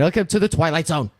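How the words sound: It is said with a sassy, playful attitude. "a little bit of sass in his voice"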